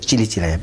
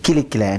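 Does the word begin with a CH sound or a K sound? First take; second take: CH; K. First: The word begins with a CH sound. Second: The word begins with a hard K sound. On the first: The speaker calls it wrong. "not as Chilichilaya" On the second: The speaker calls it right. "you pronounce it Kilikilaya"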